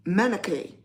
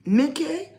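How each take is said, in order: First: Manakay with an added middle vowel, ma-na-kay; Manakay stretched into three syllables; wrong extra vowel. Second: Minkay with two syllables, no vowel between n and k; Minkay said tight, min-kay; name said right. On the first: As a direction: mispronounce it as Manakay. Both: Shown as a demonstration. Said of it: "it's no extra vowel in there".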